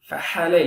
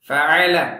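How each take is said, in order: First: The middle consonant is an h sound. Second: The middle consonant is a throat 'ain' sound. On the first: The speaker calls it wrong. "ஃபஹல ஃபஹல இல்ல" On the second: The speaker calls it right. "ஃபஅல ஐன்"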